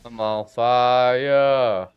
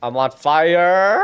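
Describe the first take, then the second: First: Deadpan slow-motion line, as if savouring the burn; slow dramatic drawl. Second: Loud, higher, slow rising yell; alarmed shout. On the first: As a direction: stretch every word out very slowly. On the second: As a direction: shout it in panic as the flames hit. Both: Real, not acted. Character burning in game.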